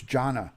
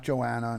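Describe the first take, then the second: First: Jonna in two syllables, JAH-nuh; correct name pronunciation. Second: Joanna in three syllables, jo-AN-uh; wrong name pronunciation. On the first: Supporter correcting host on her name, Jonna said clearly as JAH-nuh. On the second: Host showing the mistaken name, Joanna said as jo-AN-uh. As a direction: say Joanna with an extra "oh" before AN. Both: Shown as a demonstration. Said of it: "You're saying my name wrong".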